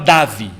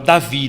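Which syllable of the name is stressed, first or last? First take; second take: first; last. First: The stress is on the first syllable. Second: The stress is on the last syllable. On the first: The speaker calls it wrong. "a gente não fala Davi" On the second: The speaker calls it right. "fala Davi"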